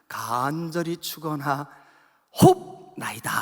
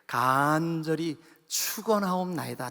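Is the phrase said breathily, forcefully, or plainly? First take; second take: breathily; plainly. First: It is said with heavy, audible breath. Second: It is said plainly, without extra force. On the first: A child copies the emphasis as breath. "그게 호흡으로 들렸어요" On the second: This is how the speaker usually says it. "저는 그러잖아요"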